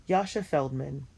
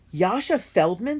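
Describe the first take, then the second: First: Said in the usual way. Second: High, loud, slow disbelieving repeat of the name; a group of men hearing a famous name, astonished; amazed exclaiming. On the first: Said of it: "give his Russian name". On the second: Acted. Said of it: "several men exclaim".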